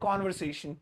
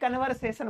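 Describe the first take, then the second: First: The first syllable has an 'o' vowel. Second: The first syllable has an 'uh' vowel. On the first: The speaker calls it right. "सही बोला करो, सी ओ को" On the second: The speaker calls it wrong. "ये कन्वर्सेशन मत बोला करो यार"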